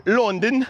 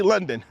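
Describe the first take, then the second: First: "London" in a silly put-on accent; exaggerated accent on London, drawn out. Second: Said in the usual way. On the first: Shown as a demonstration. Streamer showing he can't say London normally, silly accent. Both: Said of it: "I can't just say London".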